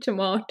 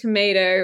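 First: It is said with a British accent. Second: It is said with an American accent. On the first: This is how the children used to say it. "rather than tomato" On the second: This is how the children say it now. "they're now saying tomato"

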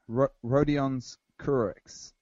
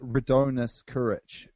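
First: The first name sounds like Rodion. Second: The first name sounds like Radonis. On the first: The speaker calls it right. "but it's Rodion's, I think" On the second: The speaker calls it wrong. "You were pronouncing it Radonis Kurich"

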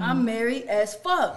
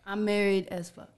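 First: It is said forcefully, sounding angry and hostile. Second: It is said plainly, without force.

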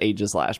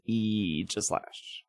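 First: The first vowel is not an 'ee' sound. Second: The first vowel is an 'ee' sound. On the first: The speaker calls it wrong. "everyone says Aegislash" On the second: The speaker calls it right. "it's Aegislash with an E"

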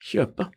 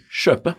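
First: It begins with a softer kj sound. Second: It begins with a sh-like sj sound. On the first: The speaker calls it right. "skal man si kjøpe" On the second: The speaker calls it wrong. "så sier jeg da SKJ. Og det er jo ikke lov"

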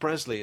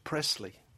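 First: The middle consonant is a buzzing z sound. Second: The middle consonant is a hissing s sound. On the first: "We turned it into a notional Z" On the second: "Even though it's only one S. The conventional pronunciation in the southern states of America"

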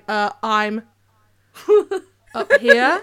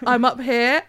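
First: There is a long pause after "I'm". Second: It is said smoothly with no pause.

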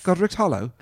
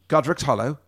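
First: It is said in a put-on accent. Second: It is said in the speaker's normal voice.

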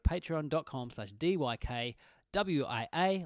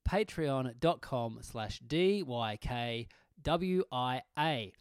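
First: It is said at normal speed. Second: It is said more slowly.

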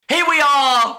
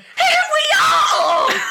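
First: It is said in a plain, unsquealing voice. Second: It is said in a high, squealing voice. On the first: The speaker calls it wrong. "that didn't sound like you were squealing" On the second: The speaker calls it right. "Thank you. That is what I wanted"

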